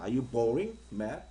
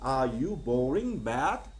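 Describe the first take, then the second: First: The ending stays lower, without a sharp rise. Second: The voice rises sharply at the end.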